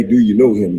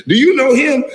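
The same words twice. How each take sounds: First: Said in the usual way. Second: High-pitched mock fan asking; imitated questioner, laugh breaking in; mimicked nosy questioner. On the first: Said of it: "I ain't around for you to ask me". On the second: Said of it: "You know how many times I hear that".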